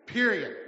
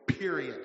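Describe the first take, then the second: First: Period said sharp and louder; louder final word. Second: Said in the usual way. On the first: Retold or imitated. Pastor retelling a man's rebuke, louder final word. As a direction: slam the last word down.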